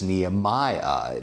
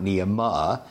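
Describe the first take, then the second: First: Every vowel is pronounced fully and separately. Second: Some vowels are run together, not fully pronounced. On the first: The speaker calls it right. "Each vowel gets a full hit of the pronunciation" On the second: The speaker calls it wrong. "or it's not Nehemiah"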